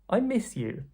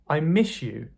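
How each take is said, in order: First: Miss ends with a clear s sound. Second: Miss ends with a sh sound.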